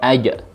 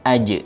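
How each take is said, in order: First: The final echo is a full 'a' vowel. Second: The final echo is a light, thin 'e'. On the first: The speaker calls it wrong. "tidak aja" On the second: The speaker calls it right. "pantulannya juga kepada sifat atau suara tipis, yakni e"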